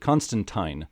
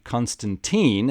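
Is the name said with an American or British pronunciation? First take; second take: British; American. First: It is said with a British pronunciation. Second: It is said with an American pronunciation. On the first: "Alan Moore named the character and pronounces it Constantine" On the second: "Americans have long pronounced it Constantine"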